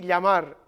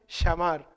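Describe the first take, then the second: First: The word is said in a standard accent. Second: The word is said in an Argentine-Uruguayan accent. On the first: "di llamar" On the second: "ellos seguramente dirían llamar"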